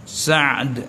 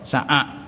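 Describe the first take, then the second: First: The middle consonant is closed, with no vowel after it. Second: An extra vowel is inserted before the final d. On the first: "Bagi aja mati tengah" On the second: "Kita panggil apa? Sa'ad"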